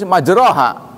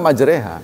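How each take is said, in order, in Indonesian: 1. Vokal setelah r adalah a terbuka biasa. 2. Vokal setelah r condong ke e. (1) "tulis majroha" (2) "Anda baca majreha"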